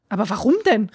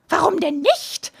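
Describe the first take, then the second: First: Said in the usual way. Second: Higher, slow, teasing witch. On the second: A narrator's reading. Witch answering the father, higher and teasing. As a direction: toss the question back like a gleeful witch.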